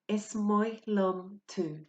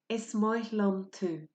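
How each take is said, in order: No difference in how they are said.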